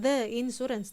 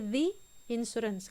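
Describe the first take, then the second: First: The word 'the' is said with a short 'thuh'. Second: The word 'the' is said with a long 'thee'. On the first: The speaker calls it wrong. "bukan the insurance" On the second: The speaker calls it right. "tapi the insurance"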